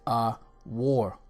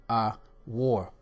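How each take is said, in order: Both takes have the same delivery.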